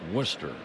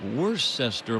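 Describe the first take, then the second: First: The name is said unlike its spelling. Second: The name is said the way it is spelled. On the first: The speaker calls it right. "I'm pretty sure you pronounce it Worcester" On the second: The speaker calls it wrong. "It looks like Worcester"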